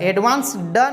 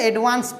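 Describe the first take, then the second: First: The word ends with a d sound. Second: The word ends with a t sound. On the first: The speaker calls it wrong. "एडवांस ड नहीं बोलेंगे" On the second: The speaker calls it right. "एडवांस से एडवांस्ड होगा ... ट बोलेंगे"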